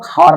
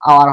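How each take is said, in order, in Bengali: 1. শব্দটি একটি 'h' ধ্বনি দিয়ে শুরু হয়। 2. শব্দটি একটি স্বরধ্বনি দিয়ে শুরু হয়। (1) "খাৱাৰ নহয়" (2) "আৱাৰ হয়"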